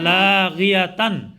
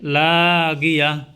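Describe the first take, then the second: First: The word ends with a t-sound, 'tan'. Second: The word ends with a soft h-sound. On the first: The reading continues without stopping. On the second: The reading stops at the end of the verse.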